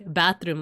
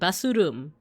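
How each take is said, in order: First: It is said with ordinary English sounds. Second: It is said with Japanese-style sounds. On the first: "Or like bathroom" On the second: "like basurum"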